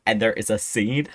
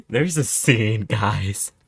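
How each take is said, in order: First: Said in the usual way. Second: Louder, excited repeat. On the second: Shown as a demonstration. Telling viewers, excitedly louder. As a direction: say it again, louder and more excited.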